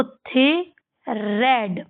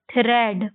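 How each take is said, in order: First: थ्रेड split into थे, pause, रेड; sounded out. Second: Said in the usual way. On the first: Shown as a demonstration. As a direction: say थे and रेड as separate parts. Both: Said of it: "आपको इसको कैसे पढ़ना है".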